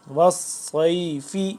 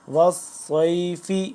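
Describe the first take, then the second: The two takes are said the same way.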